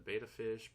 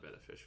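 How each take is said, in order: First: The first vowel sounds like 'bay'. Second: The first vowel sounds like 'bet'. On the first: This is how other people say it. "some people will call it a beta fish" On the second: This is how the speaker says it. "I call it betta fish because, well, there's two T's"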